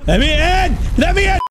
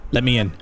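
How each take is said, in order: First: High, loud shriek; escalating demand. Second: Said in the usual way. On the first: Acted. Player locked out of the room, shrieking to get in. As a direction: shout it higher each time, desperate to get through.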